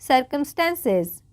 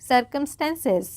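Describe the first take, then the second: No difference in how they are said.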